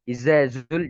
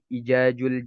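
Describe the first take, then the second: First: The consonant is pronounced as a z sound. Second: The consonant is pronounced as a j sound. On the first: "Atau Izazul" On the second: "Ini kesalahan yang banyak tersebar"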